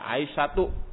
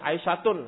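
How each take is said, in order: First: The word ends on a vowel without n. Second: The word ends with an added n sound. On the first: The speaker calls it right. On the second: The speaker calls it wrong. "Aisyatun, salah"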